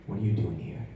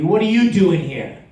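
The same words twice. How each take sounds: First: It is said in a fearful, frightened tone. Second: It is said loudly and confrontationally. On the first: The speaker is scared of the person who arrived. "What if I'm afraid of the guy that just walked in the door?" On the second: The speaker is challenging an enemy at a distance. "if an enemy just walked in the door twenty feet away"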